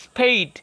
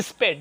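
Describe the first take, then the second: First: স্পেড with a long ei glide; corrected long vowel. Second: স্পেড with a short e; wrong short vowel. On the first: Teacher corrects learners, স্পেড as long "speyd". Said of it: "আপনারা বলবেন". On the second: Teacher mimics learners' mistake, স্পেড as "sped". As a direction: say স্পেড as "isped", no glide. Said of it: "এরপর বলেন". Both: Shown as a demonstration.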